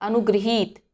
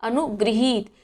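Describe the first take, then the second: No difference in how they are said.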